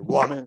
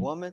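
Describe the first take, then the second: First: It is said in a disrespectful tone. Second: It is said in a respectful tone.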